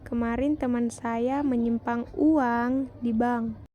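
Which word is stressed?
uang. The word uang is stressed. "pada kalimat terakhir mendapat tekanan pada kata uang"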